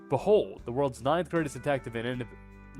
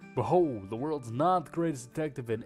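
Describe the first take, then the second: First: It is said in his normal accent. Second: It is said in a low Texan cowboy accent.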